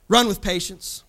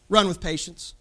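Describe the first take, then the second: No difference in how they are said.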